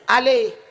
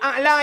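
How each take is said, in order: First: The word ends in an 'ih' sound. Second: The word ends in an open 'a' sound. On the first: The speaker calls it wrong. "alihnya pi salah" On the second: The speaker calls it right. "A'la yang tinggi"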